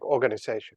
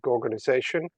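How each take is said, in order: First: The word begins with a vowel sound. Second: The word begins with a G sound. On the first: It reads as an ordinary organization. "the breach is silent" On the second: It links the name to the Gorgon. "pronounce it gorgonization"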